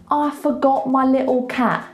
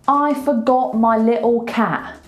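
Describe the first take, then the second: Both takes have the same delivery.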